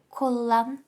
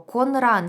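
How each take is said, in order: First: The middle sounds merge into a double l. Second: The middle sounds are n followed by r. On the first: The speaker calls it right. "Легше ж сказати колан" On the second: The speaker calls it wrong. "стільки приголосних"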